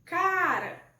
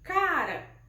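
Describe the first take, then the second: First: The stress is on the first syllable. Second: The stress is on the first syllable.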